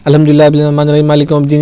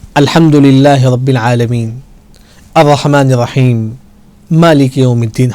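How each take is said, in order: First: It is recited quickly without pauses between verses. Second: It is recited slowly, pausing after each verse.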